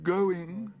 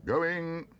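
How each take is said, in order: First: High, loud desperate call. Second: High, loud auctioneer's call. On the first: Auctioneer desperately seeks bids. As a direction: plead with the room. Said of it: "said the auctioneer desperately". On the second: Auctioneer calls the lot to the room. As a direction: ring it out over the hall. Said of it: "called the auctioneer". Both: A narrator's reading.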